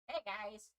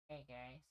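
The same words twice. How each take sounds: First: It is said with lots of energy. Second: It is said with little energy.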